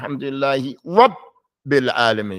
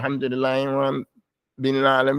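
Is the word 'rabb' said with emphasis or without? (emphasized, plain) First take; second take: emphasized; plain. First: The voice rises with emphasis on 'rabb'. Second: The word 'rabb' gets no added emphasis. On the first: The doubled consonant is made clear. The speaker calls it right. "You're going to raise your voice before the shadda so we know it's a shadda" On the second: The doubled consonant is not noticed. The speaker calls it wrong. "You can't say"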